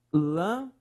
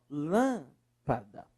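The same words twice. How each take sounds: First: Lâmpada broken into lâm, pa, da with long gaps; syllable by syllable. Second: Lâmpada with a long drawn-out LÂM; stressed first syllable. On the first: Teacher separating the example word, syllable by syllable. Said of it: "Separe, por favor". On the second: Teacher showing the strongest syllable, LÂM held long in lâmpada. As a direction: stretch the LÂM in lâmpada, then finish softer. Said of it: "Qual é a sílaba mais forte?". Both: Shown as a demonstration.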